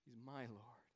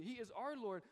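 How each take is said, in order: First: "my" stressed, said softly. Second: "our" stressed and falling. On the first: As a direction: press gently on the word "my", personal Lord. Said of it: "He says something unique". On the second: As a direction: lean on the word "our", collective Lord. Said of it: "Other times he says that Jesus is our Lord". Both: Shown as a demonstration.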